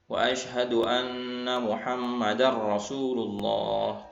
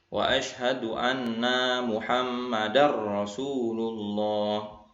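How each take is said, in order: First: The vowel after the n in anna is short. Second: The vowel after the n in anna is long. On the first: He bears witness that Muhammad is the messenger of God. The speaker calls it right. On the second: It says 'that we, namely Muhammad', which sounds strange. The speaker calls it wrong. "tapi dia membacanya"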